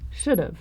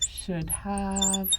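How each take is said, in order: First: The words are contracted into one syllable. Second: Both words are said in full. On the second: "You can shorten"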